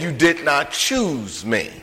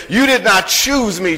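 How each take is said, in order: First: Slow, softer, leaning on "did"; quiet slow stress on "did". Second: Said in the usual way. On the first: Shown as a demonstration. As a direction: press down hard on "did" in "You did not choose me". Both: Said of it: "who, no, he said".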